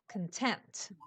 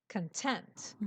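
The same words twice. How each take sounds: First: The stress is on the second syllable. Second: The stress is on the second syllable.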